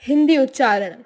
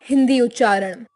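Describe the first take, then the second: The two takes are said the same way.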